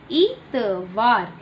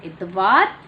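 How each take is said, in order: First: Put-on teacher models इतवार slowly for children; slow drawn-out model. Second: Said in the usual way. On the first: Shown as a demonstration. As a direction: stretch इतवार slowly, each sound long. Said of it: "slow model". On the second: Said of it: "normal take".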